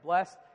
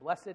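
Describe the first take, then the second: First: The word is said with one syllable. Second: The word is said with two syllables. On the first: It is the ordinary everyday way to say it. "instead of blessed" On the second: It sounds more holy, as church people say it. "church people say blessed"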